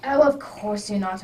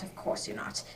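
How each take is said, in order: First: Said in the usual way. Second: Breathy whisper to himself; whispered aside. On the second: Acted. Holmes whispers to himself while humouring his friend. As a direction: drop it to a private whisper.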